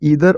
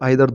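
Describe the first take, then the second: First: The word begins with an 'ee' vowel. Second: The word begins with an 'eye' vowel. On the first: "इस word को हम ईदर और आइदर दोनों पढ़ सकते हैं" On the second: "इस वर्ड को हम ईदर और आइदर दोनों पढ़ सकते हैं"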